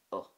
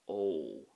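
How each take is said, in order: First: "U" as a short, quick "uh"; a brief unstressed "uh" sound. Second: "O" held long as "oh"; a drawn-out, emphasized "O"; long stressed O. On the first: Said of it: "this is just an U sound". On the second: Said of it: "more stress and emphasis". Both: Shown as a demonstration.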